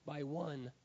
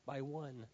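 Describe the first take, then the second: No difference in how they are said.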